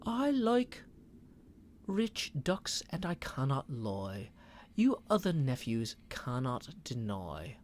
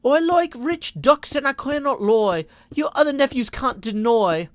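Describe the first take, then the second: First: Put-on second go at a London Thames accent, slower and softer; a more careful Thames accent, London vowels; a retried British Thames accent, slower. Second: Put-on failed British accent, higher and louder; a botched British accent on a rapped chat line. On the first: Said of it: "Thames accent". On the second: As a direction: try for a British accent and miss it. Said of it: "she would have a British accent".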